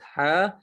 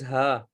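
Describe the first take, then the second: First: The h sound is harsh and high-pitched. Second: The h sound is soft and plain. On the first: This is how the letter sounds in Arabic. "in Arabic, you should have a high tone for ha" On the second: This is how the letter sounds in Urdu. "in Urdu, it is ha"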